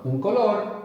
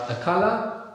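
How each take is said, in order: First: "color" as Spanish co-LOR, falling; Spanish pronunciation. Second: "color" as English CUH-luh, high and rising; English pronunciation. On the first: Teacher confirming the student's answer, Spanish pronunciation of "color". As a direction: stress the end of "color" and sound the R. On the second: Teacher prompting the student, English pronunciation of "color". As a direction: offer "color" in English, stressed up front. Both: Shown as a demonstration. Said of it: "I think we can just apply it".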